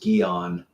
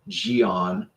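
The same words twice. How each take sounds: First: The word begins with a hard G sound. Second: The word begins with a soft G sound.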